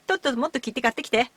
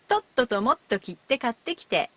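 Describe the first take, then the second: First: The phrase is spoken very quickly. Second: The phrase is spoken at an ordinary pace. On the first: "in high speed" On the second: "in natural speed"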